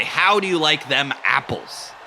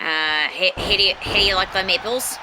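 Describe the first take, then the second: First: "How do you like them apples?" with a Boston accent, dropped r and broad vowels; Boston accent demo line. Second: "how do you like them apples" tried in Boston accent but still New Zealand; failed Boston accent attempt. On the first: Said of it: "Boston accent thing for you to try". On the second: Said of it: "you're still New Zealand". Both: Shown as a demonstration.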